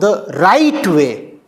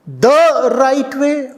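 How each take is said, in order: First: The stress falls on the word "right". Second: The stress falls on the word "the". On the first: Importance is given to what is actually right. The speaker calls it right. "The emphasis must be on right" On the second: Importance is given to the particular established way. The speaker calls it wrong. "The or right"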